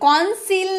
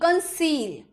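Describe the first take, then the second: First: The first vowel is an open 'o' sound. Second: The first vowel is a short 'uh' sound. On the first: The speaker calls it wrong. "कॉन्सील नहीं" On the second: The speaker calls it right.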